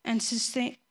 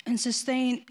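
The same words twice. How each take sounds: The two takes are said the same way.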